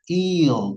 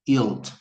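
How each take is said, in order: First: The vowel sound is said strongly. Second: The vowel sound is said weakly. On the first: The speaker calls it right. "이 I 발음은 상당히 강력하게 하는 발음이에요. yield 이렇게 발음해야 돼요" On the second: The speaker calls it wrong. "발음이 yield가 아니라고 주의하시고요"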